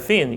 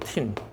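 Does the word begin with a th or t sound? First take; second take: th; t. First: The word begins with a soft th sound. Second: The word begins with a hard t sound. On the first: The speaker calls it right. "thick이 아니라 thin이잖아요" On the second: The speaker calls it wrong. "이거를 tin이라고 읽으시더라고"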